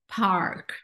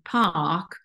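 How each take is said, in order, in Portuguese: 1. O som do R depois da vogal é pronunciado. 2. O som do R depois da vogal é omitido. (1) "você pronuncia esse er" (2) "e não pronunciar esse R"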